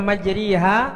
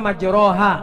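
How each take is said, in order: First: The vowel after r leans toward i. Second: The vowel after r is a plain open a. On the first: "tapi dibaca majriha, maka itu ah, aneh" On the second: "Kalau yang normal kan mestinya majroha"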